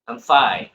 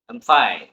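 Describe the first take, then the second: First: I is reduced; the stress is on fine. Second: The same.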